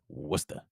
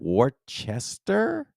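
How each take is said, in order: First: The name is said in a shortened form. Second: The name is read out as it is spelled. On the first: A local is saying it. The speaker calls it right. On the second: Someone from outside the state is guessing. The speaker calls it wrong. "How do you pronounce that?"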